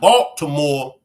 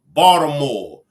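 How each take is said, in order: First: The T sound is clearly pronounced. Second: The T sound is dropped. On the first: This is how outsiders say it. The speaker calls it wrong. "Not Baltimore" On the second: This is how locals say it. The speaker calls it right. "We don't use our T's"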